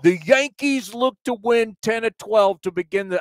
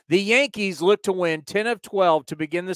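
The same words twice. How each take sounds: First: It is spoken in a New York accent. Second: It is spoken in a neutral accent.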